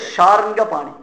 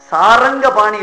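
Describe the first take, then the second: First: It begins with 'sh' and says 'sharnga'. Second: It begins with 's' and says 'saranga'. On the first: The speaker calls it right. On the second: The speaker calls it wrong. "சாரங்க பாணி இல்ல, நிறைய பேர் அப்படி தப்பா உச்சரிக்கிறார்"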